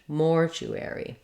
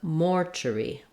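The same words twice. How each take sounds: First: The ending keeps a full, longer 'air' vowel. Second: The ending is reduced and loses a syllable. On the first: "we have the letters A R saying air in American English" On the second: "no secondary stress like it is in British English"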